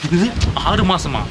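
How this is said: It is said in a light, playful tone. The speaker is joking about the delay. "கொஞ்சம் ஜாலியாக fun"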